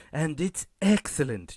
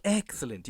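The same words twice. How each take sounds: First: Said in the usual way. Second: Softer, relishing excellent; Burns's signature excellent. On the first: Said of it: "You know how I say it?". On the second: Shown as a demonstration. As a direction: purr the word excellent like a scheming boss. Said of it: "You know how I say it? Like, like".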